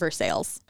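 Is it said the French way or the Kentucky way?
Kentucky. It is said with a Kentucky pronunciation.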